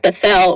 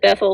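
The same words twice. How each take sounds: First: The stress is on the second syllable. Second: The stress is on the first syllable. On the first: The speaker calls it right. "emphasis on the E L" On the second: The speaker calls it wrong. "everybody pronounces it Bethel the first time"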